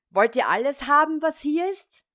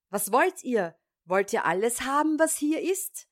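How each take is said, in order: First: High, loud and fast yell; shouting with all his might. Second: High, loud, fast yell, rising at the end; shouting again. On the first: Tiny thief yells from the parson's room, full-throated shout. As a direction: bellow it through the whole house. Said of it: "schrie aber gleich aus Leibeskräften". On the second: Tiny thief pretends not to understand, shouts louder. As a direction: yell it out as if you did not hear them. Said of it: "schrie von neuem". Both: A narrator's reading.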